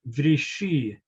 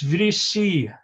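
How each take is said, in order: First: The middle consonant is a splashy sh sound. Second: The middle consonant is a plain s sound. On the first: This is the village pronunciation of the elders. The speaker calls it wrong. "shiny, sibilant splash I always heard whenever one of the elders said" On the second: This is the standard city pronunciation. The speaker calls it right. "lacked the shiny, sibilant splash"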